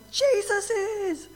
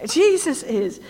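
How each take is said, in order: First: Much higher, very slow, drawn-out announcement; awed revelation. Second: Louder, higher ringing declaration; bold proclamation. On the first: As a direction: reveal it slowly in awe. Sudden triumphant answer in the vision. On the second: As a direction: proclaim it to the crowd. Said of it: "Some of you are getting into this". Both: Acted.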